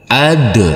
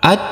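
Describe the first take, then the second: First: The final consonant is released with a bouncing echo. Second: The final consonant is cut off flat without echo. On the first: The speaker calls it right. "harus kita pantulkan untuk huruf dalnya menjadi ad" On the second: The speaker calls it wrong. "Tidak boleh"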